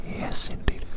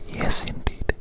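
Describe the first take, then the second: No difference in how they are said.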